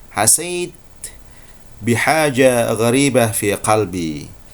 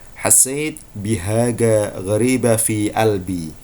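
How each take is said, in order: First: It has a j sound and a q sound. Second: It has a g sound and a glottal stop.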